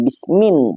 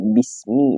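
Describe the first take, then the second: First: The word ends with an added n sound. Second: The word ends in a vowel without n. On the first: The speaker calls it wrong. "bukan bismin" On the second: The speaker calls it right. "dibaca bismi"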